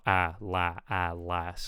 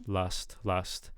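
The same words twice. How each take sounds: First: "last" with an open front a, as in cat; target vowel. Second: "Last" said like "lust"; mispronounced vowel. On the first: Reviewer modelling the wanted last, front a vowel. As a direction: spread the vowel of "last" into aah. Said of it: "But I want". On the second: Reviewer copying the learner's Last, sounding like lust. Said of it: "kind of hearing, like". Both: Shown as a demonstration.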